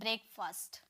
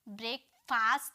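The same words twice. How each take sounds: First: It is run together, with a reduced ending. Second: It is split, with a full 'fast' ending. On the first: The speaker calls it right. "एक साथ, फास्ट नहीं बोलना है" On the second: The speaker calls it wrong. "नहीं"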